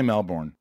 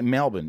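First: It is said in an American accent. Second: It is said in an Australian accent. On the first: The speaker calls it wrong. "it's not right. Don't say Melbourne" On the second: The speaker calls it right. "So just say Melbourne"

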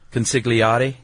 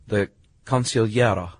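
First: The G is pronounced as a hard G. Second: The G is soft or silent. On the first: "I like it with the hard G" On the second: "there's a couple of ways to pronounce this"

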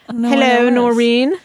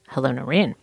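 First: It is said in a put-on British accent. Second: It is said in a plain, non-British accent. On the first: The speaker calls it right. "I didn't know you did a British accent" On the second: The speaker calls it wrong. "I got a less British greeting from you"

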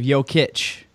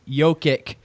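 First: The final consonant is soft. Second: The final consonant is hard. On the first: The speaker calls it right. "the Eastern European soft C at the end" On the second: The speaker calls it wrong. "you just do not get the Eastern European soft C at the end"

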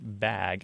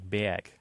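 First: The vowel is the plain short a sound. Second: The vowel is shifted to a different quality. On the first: "a word like bag" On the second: "counts out a little more like bag"

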